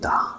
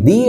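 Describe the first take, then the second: First: The vowel is a short 'uh' sound. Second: The vowel is a long 'ee' sound. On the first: The next word starts with a consonant. "আর এক ক্ষেত্রে আমরা করছি দা" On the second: The next word starts with a vowel. "এক ক্ষেত্রে আমরা করছি কি দি"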